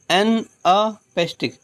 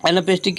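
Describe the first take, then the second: First: "एनापेस्टिक" slowly split as an, a, pestic; broken into syllables. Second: Said in the usual way. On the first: Shown as a demonstration. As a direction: say "एनापेस्टिक" in separate beats, short "an", "a", then "pestic". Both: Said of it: "ऐसे आप याद रखिए".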